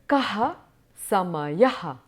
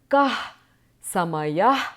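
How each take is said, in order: First: Each final h is followed by an echoed vowel. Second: Each final h is a plain breathy release. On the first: "with an emphasis" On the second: "the aspirated visarga sound in its natural form"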